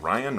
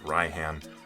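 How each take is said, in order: First: The name is pronounced like 'Ryan'. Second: The name is pronounced like 'Raihan'. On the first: "do you pronounce it like Ryan" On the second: "or do you say like Raihan"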